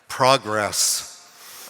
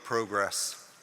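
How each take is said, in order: First: It is said in a non-British accent. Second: It is said in a British accent.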